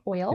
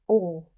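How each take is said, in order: First: The vowel is a clear oy sound. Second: The vowel is a Southern oh sound.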